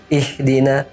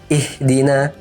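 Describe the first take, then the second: No difference in how they are said.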